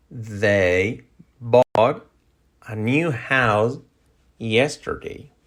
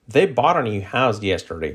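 First: Slow, in separated chunks; slow model sentence. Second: Connected, flowing example sentence; natural-speed model sentence. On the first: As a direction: pause between phrases for learners. Sentence broken up slowly for learners. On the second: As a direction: link the words smoothly. Same sentence at natural linked speed. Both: Shown as a demonstration.

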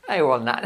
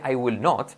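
First: NOT opened to "naht", breaking into a laugh; cool not. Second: NOT with a rounded O; uncool not. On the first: Teacher showing the preferred version, NOT as "naht". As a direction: say NOT as "nat" with open A. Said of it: "Suena mucho más cool". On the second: Teacher showing the rejected version, NOT with rounded O. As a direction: say NOT with an O, not "naht". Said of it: "decir not que not". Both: Shown as a demonstration.

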